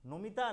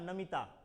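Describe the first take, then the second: First: The first vowel sounds like 'o'. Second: The first vowel sounds like 'a'. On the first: This is the Bengali pronunciation. "हम लोग के बंगाली में उच्चारण क्या होता है, थोड़ा सा अलग होता है" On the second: This is the Hindi pronunciation. "Hindi में जो होता है वो क्या है, नमिता कहेगा"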